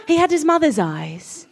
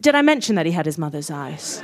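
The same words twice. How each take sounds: First: Milk the cliché dramatically; hammed-up reverence. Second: Much lower, dry reminder; deadpan aside. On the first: Hammed-up running joke in narration. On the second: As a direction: drop low for a knowing aside. Deadpan aside repeating the joke. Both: A narrator's reading.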